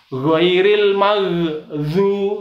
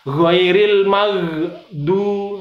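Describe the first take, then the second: First: Air escapes, making the d sound buzzy. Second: The d is stopped cleanly with no air. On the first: The speaker calls it wrong. "Ini contoh salah... ada udaranya" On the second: The speaker calls it right. "Yang benar bersih"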